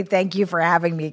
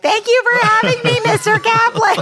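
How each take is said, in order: First: Said in the usual way. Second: Put-on very high, loud singsong kid voice; hammed-up childish thanks, pitched way up; polite kid in the doorway. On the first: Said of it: "He always calls me". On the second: Kid in the doorway calling thanks to friend's dad, hammed-up and high. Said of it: "my dumb body standing in the doorway".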